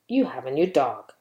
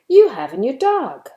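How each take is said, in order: First: It is said as a plain statement. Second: It is said with a surprised tone. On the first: The speaker is simply stating a fact. "You can use it to give a statement" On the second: The speaker did not expect this. "to express your surprise"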